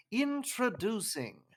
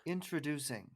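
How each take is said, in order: First: Slow, higher English-accent intro; English-accent announcer. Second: Even, soft intro read; a first, flat try at the intro; plain announcer try. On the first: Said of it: "or, like". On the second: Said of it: "my voice isn't as deep as yours". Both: Shown as a demonstration.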